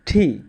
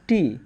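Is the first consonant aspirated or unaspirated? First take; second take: aspirated; unaspirated. First: It starts with a breathy aspirated t. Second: It starts with an unaspirated t. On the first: The speaker calls it right. "হবে ঠি" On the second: The speaker calls it wrong. "আমরা সাধারণত টির উচ্চারণ বলি টি"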